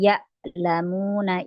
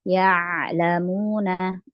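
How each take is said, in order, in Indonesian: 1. Konsonan tengahnya adalah hamzah biasa. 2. Konsonan tengahnya adalah bunyi tenggorokan bersuara. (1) "bukan ya lamuna, ya itu jadi hamzah" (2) "tapi ya'lamuna"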